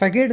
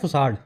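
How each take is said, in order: First: The middle consonant is a hard K sound. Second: The middle consonant is a soft S sound. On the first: The speaker calls it wrong. "इसको फैकेड नहीं बोला जाता" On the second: The speaker calls it right. "इसका pronunciation होता है फुसाड"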